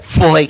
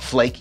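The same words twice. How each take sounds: First: The word is said harder, with more force. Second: The word is said in a plain, ordinary way.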